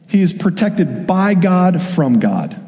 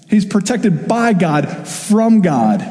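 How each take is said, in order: First: Said in the usual way. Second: Slow, with "by" and "from" punched; "from" lifted and set apart after a pause; emphatic repeat. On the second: Shown as a demonstration. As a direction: lean hard on "by", pause, then hit "from".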